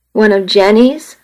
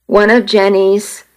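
First: Rising "One of Jenny's?" stressing "one"; incredulous echo. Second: Said in the usual way. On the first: A narrator's reading. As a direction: throw the words back in disbelief. Echoed in disbelief.

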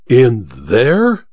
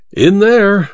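First: IN THERE as a rising question; incredulous question. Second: High IN THERE, falling at the end; emphatic repeat. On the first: Goodall learning who is locked in, incredulous. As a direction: ask "In there" in disbelief, pitch climbing at the end. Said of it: "cried Goodall". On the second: Welton confirming to Goodall, high and emphatic. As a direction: confirm "In there" firmly from a raised pitch. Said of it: "repeated Welton". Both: A narrator's reading.

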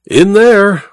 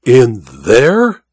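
First: IN THERE high and firm, falling at the end; high, definite IN THERE as a statement; emphatic repetition. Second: Stunned question with a big rise at the end; dipping, then rising astonished question; incredulous cry. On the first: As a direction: confirm IN THERE emphatically, pitched up. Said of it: "repeated Welton". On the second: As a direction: ask it in disbelief, swooping up. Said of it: "cried Goodall". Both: A narrator's reading.

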